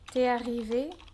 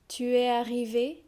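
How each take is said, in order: First: The u of tu is dropped. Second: The word tu is said in full. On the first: This is the casual spoken form. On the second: This is the careful reading form.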